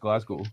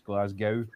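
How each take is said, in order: First: The last syllable does not rhyme with 'cow'. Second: The last syllable rhymes with 'cow'. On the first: The speaker calls it right. "but it's just Glasgow" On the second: The speaker calls it wrong. "the last three letters of Glasgow are GOW, so it gets mispronounced Glasgow"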